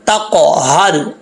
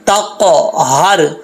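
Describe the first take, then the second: No difference in how they are said.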